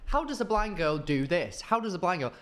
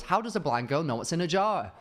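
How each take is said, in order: First: Lightly imitated TikTok intro voice, higher; sing-song video-opener hook, lightly mimicked; imitating TikTok intro. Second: Lightly imitated video opener, higher; imitating TikTok intro. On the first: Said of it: "her voice would always start with". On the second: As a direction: chant it like a catchy hook. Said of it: "one video was".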